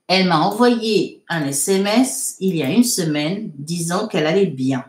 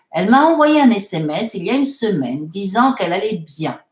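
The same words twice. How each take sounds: First: Measured, phrase-by-phrase reading. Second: Said in the usual way. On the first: Shown as a demonstration. Teacher repeating a sentence for students to translate, measured dictation. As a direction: dictate it in small chunks with gaps.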